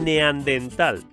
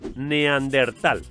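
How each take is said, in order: First: The word has no r sound at all. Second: The r sound comes right after te. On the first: The speaker calls it wrong. "ni neandental" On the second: The speaker calls it right. "es neandertal"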